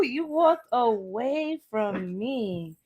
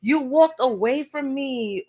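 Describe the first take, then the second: First: Very slow, softer, dragged-out repeat; drawn out. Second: Said in the usual way. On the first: Shown as a demonstration. Reader repeating the card's message to viewers, very slowly. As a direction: stretch every word out knowingly.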